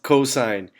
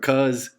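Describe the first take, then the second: First: The word is said in full with two syllables. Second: The word is cut short to one syllable. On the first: The speaker calls it right. "It's pronounced cosine" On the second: The speaker calls it wrong. "please don't pronounce it cos"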